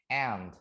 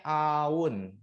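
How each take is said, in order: First: "aunt" as one syllable, unlike its spelling; correct pronunciation. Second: "aun" read as written, in two vowels; as spelled. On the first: Teacher showing how the word is read, "aunt" in one syllable. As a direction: say "aunt" in a single syllable, vowels not split. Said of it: "tapi bacanya aunt". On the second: Teacher showing learners the spelling of aunt, "aun" sounded as written. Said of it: "Tulisannya aun, tapi bacanya aunt". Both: Shown as a demonstration.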